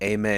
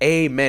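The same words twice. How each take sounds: First: It is said flatly without enthusiasm. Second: It is said brightly and enthusiastically. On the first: The speakers are not enthusiastic about it. "y'all could sound enthusiastic about it" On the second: The speaker is happy to be religious. "very up and like happy"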